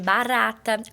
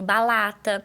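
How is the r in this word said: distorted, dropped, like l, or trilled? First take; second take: trilled; like l. First: The r is a clear tapped r sound. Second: The r is replaced by an l sound. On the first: "o som do R vibrante, que é o de barata" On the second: "ela faz a troca do som, que geralmente é pelo L"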